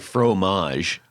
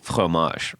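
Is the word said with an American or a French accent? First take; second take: American; French. First: It is said with an American English accent. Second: It is said with a French accent. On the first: The speaker calls it wrong. "Right now we say fromage" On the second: The speaker calls it right. "you're supposed to go like fromage"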